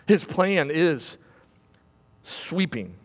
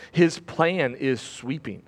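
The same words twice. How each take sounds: First: "His plan is" slow, long pause, then "sweeping" dropped very soft; pause before sweeping. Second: Said in the usual way. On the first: Shown as a demonstration. Preacher to congregation, dramatic pause then a hushed "sweeping". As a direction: hold back, then breathe out "sweeping". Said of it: "repeat with long pause before sweeping". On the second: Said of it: "repeats the line with a pause".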